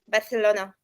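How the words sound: It is said in a Spain Spanish accent. "Spanish people say F Barcelona"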